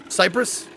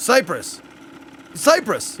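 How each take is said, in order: First: "Cypress" said SIGH-press, long i; "Cypress" as in Cypress Hill, SIGH-press. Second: "Cyprus" said SIGH-prus like the island; "Cyprus" with a short, clipped second syllable; other pronunciation. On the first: Player repeats the word the American way, SIGH-press. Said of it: "How did you pronounce cypress". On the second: Friend shows how he says the word: SIGH-prus. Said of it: "How would you say it?". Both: Shown as a demonstration.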